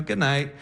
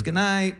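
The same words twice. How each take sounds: First: Said in the usual way. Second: Lightly voiced higher feminine good night; girlfriend. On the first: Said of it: "I go". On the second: Girlfriend puts her arm round him, higher mild goodnight. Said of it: "She goes".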